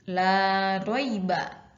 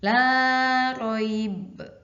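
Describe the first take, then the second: First: The phrase ends on a vowel. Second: The phrase ends on a consonant. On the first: The reader continues without stopping. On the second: The reader stops here.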